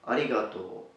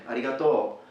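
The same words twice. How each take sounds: First: The word has no strong accent at the end. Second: The word has a stronger accent at the end. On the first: This is the standard spoken form. "the standard spoken language" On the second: This is how speakers from another region say it. "a stronger accent towards the end"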